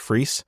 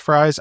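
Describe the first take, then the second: First: The vowel sounds like 'ee', as in freeze. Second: The vowel sounds like 'eye', as in fries. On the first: This is how the speaker's own last name is said. "my last name, which is pronounced Freese" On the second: This is how the player's name is said. "so I'm pretty sure it's Fries"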